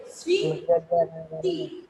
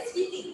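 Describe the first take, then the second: First: স্মৃতি drawn out very slowly and low, spoken as "sriti" with the ম silent; model pronunciation. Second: Said in the usual way. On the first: Shown as a demonstration. Teacher shows pupils how স্মৃতি sounds, slow and low. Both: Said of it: "উচ্চারণ কিন্তু আমরা করছি".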